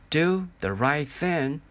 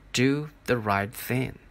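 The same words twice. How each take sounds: First: Drawn-out, insistent echo; slow echoing repeat, rising. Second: Slow echo. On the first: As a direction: let it ring slowly in the head. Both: Acted. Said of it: "grandfather's voice saying".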